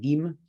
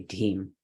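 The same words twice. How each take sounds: First: The d has no puff of breath. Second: The d has a puff of breath. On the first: The speaker calls it wrong. "You won't say dim" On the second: The speaker calls it right. "you'll say dim"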